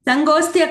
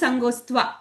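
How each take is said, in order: First: The word ends with a 'tya' sound. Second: The word ends with a 'tva' sound. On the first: The speaker calls it wrong. "సంగోస్త్య కాదు" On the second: The speaker calls it right. "త్వా అని రావాలి"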